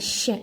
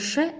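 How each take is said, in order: First: The sh sound is soft and hissing. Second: The sh sound is hard and short. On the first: The speaker calls it right. "а щ. Она щипящая" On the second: The speaker calls it wrong. "Многие говорят ш, ... это не ш"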